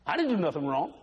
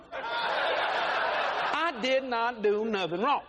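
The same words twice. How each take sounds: First: Said in the usual way. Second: Slow, drawn-out laughing protest; husband drags out his denial, mock innocent. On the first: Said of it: "repeated denial". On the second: Shown as a demonstration. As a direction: stretch it out like a wronged innocent. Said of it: "slowed mock innocence".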